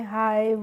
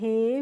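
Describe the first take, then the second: First: The vowel glides like 'eye'. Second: The vowel is a plain 'eh'. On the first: The speaker calls it wrong. "इस तरीके से नहीं pronounce करना है" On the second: The speaker calls it right. "इस तरीके से हम इनको पढ़ेंगे"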